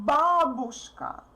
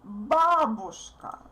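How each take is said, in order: First: The stress is on the first syllable. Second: The same.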